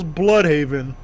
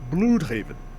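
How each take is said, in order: First: The name is said in a plain English way. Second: The name is said with a German pronunciation.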